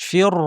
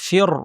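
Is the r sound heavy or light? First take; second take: heavy; heavy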